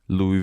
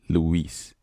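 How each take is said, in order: First: The name ends without any S sound. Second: The name ends with an audible S sound. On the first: "So you leave out the S" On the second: "they actually don't miss out on the S"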